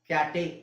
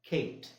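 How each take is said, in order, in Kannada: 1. ಕೊನೆಯ 'e' ಸ್ವರದಂತೆ ಉಚ್ಚರಿಸಲಾಗುತ್ತದೆ. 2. ಕೊನೆಯ 'e' ಉಚ್ಚರಿಸಲಾಗುವುದಿಲ್ಲ, ಮೌನವಾಗಿರುತ್ತದೆ. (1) "ಕ್ಯಾಟೆ ಅಂತ ಹೇಳಕ್ಕಾಗುತ್ತಾ? ಇಲ್ಲ" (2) "ಅದು ಖೇಟ್"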